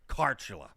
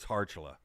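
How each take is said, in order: First: The name starts with a hard K sound. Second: The name starts with a soft H sound. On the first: The speaker calls it wrong. "It's not Carchula" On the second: The speaker calls it right. "you can't hear any K or C. It's Harchula"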